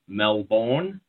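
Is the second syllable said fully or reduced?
fully. The second syllable is said fully, like 'bourne'. This is how outsiders say it. "you guys say Melbourne"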